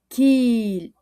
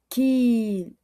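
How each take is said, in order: Both takes have the same delivery.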